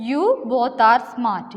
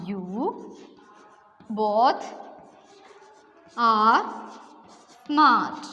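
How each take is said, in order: First: Said in the usual way. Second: One word at a time with long gaps; You, both, are, smart, each word spoken separately with pauses; dictation pace. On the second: Shown as a demonstration. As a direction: dictate it so students can write along. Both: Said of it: "all of you listen".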